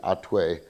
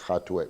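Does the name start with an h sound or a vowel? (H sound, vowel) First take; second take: vowel; h sound. First: The name starts with a vowel, no h sound. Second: The name starts with an h sound. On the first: This is how it would be said in Spanish. "in Spanish it would be Atue" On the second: This follows the Yiddish spelling with the letter hey. "in Yiddish it's got the hey"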